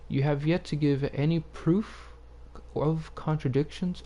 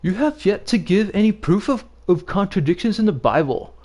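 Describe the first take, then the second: First: It is read in the speaker's own plain voice. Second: It is read in an imitation of Christian One.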